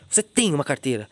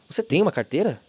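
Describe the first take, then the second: First: It is said in an accusing tone. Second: It is said as a plain, genuine question. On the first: The speaker is accusing the listener. "Sabe o que eu tô acusando" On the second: The speaker is simply asking. "Agora você sabe o que eu tô perguntando"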